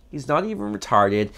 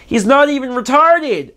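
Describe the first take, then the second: First: Softer, flat aside; deadpan repeat. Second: Much higher, incredulous outburst; outraged exclamation. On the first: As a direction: drop it quietly to yourself. Deadpan repeat after outburst. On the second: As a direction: cry it out in disbelief. Outraged exclamation about Leatherface. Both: Real, not acted.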